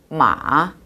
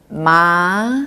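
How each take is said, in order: First: The pitch dips down, then rises slightly. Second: The pitch rises smoothly from mid to high. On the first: It means horse. "내려갔다가 위로 조금 올라가는 음" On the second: It means hemp. "부드럽게 한 미에서 솔까지 올라가는 음"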